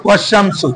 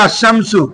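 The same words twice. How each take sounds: First: ওয়াশামসু joined up, no hamza after the wa; hamza dropped. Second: Said in the usual way. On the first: Shown as a demonstration. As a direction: slide from wa straight into the sh of ওয়াশামসু. (ওয়াশামসু-তে Hamza উচ্চারণ না করে মিলিয়ে পড়া) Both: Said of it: "ওর আর উচ্চারণ হচ্ছে না".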